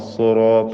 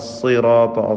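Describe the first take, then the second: First: The vowel after the s sounds like 'u'. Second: The vowel after the s is a clear 'i'. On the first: The speaker calls it wrong. "സുറാത്ത അല്ല" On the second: The speaker calls it right. "വ്യക്തമായി കസ്ർ ഉച്ചരിക്കുക തന്നെ വേണം"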